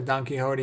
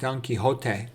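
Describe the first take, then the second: First: The name is pronounced the English way. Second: The name is pronounced the Spanish way.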